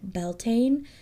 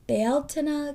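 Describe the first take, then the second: First: The word is said the usual anglicized way. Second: The word is said with the Irish pronunciation. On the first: "it may sound different than Beltane" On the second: "Irish is pronounced Bealtaine"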